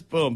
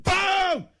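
First: Said in the usual way. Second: High-pitched shouted impact; explosive boom. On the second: Retold or imitated. Acts the exploding ball hit.

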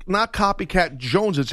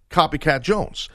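First: Higher-pitched "Joneses" with an extra plural syllable; the mistaken form "Joneses", pitched up; wrong plural JONESES. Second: Said in the usual way. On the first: Shown as a demonstration. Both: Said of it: "it's important the way it's said".

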